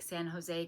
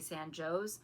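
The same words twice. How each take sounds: First: It uses the widely known pronunciation. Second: It uses the local Illinois pronunciation. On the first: This is the name of the city in California. "spelled like San Jose, California" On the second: This is how the town in Illinois says it. "but they say they say San Jose"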